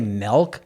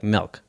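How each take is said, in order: First: The vowel is plain, without a twang. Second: The vowel has a slight twang. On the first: "they don't say" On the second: "It's just like a slight twang on the I"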